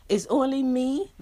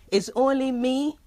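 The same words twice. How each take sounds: The two takes are said the same way.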